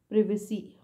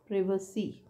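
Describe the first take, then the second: First: The first syllable has a short 'i' vowel. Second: The first syllable has a short 'i' vowel.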